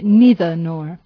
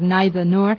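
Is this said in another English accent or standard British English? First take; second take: another accent; standard British. First: It is said in another English accent. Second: It is said in standard British English. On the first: "En algunos acentos ingleses se dice" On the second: "nosotros seguimos el inglés británico estándar"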